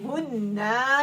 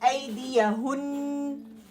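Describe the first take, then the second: First: The ending is stretched into a long vowel. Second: The ending is a held nasal n sound. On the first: The speaker calls it wrong. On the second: The speaker calls it right.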